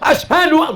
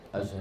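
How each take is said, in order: First: It is said loudly, startlingly. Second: It is said softly and slowly.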